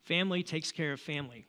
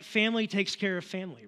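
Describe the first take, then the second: First: Said in the usual way. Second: A lightly done gravel-free Dom Toretto impression, a bit higher and louder; quoting Dom from Fast and Furious with a light put-on accent. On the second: Preacher quoting Dom to the congregation, lightly imitated accent. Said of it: "that's the best accent I have of, of Dom".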